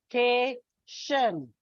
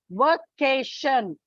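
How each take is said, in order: First: "Vacation" slowly split into three syllables; va... ca... tion, slow and separated. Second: Said in the usual way. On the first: Shown as a demonstration. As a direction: sound out "Vacation" with a gap after each syllable. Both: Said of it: "It's a trisyllabic word".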